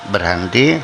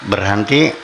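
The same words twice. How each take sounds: The two takes are said the same way.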